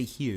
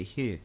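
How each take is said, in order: First: "here" mimicking the learner's too-proper ending; wrong "here". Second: "here" with a New York ending, low and soft. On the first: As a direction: show how not to say "here" in New York. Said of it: "Don't say here". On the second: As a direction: show the local way to say "here". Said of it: "You say here". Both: Shown as a demonstration.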